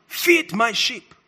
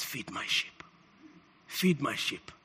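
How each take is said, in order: First: "Feed my sheep" slowly drawn out, in full voice; deliberate command. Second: Very low, near-whispered charge; hushed command. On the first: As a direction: proclaim "Feed my sheep" word by word. Repeats the charge to congregation. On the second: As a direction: entrust it in a murmur. Acts Jesus' quiet charge to Peter. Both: Retold or imitated.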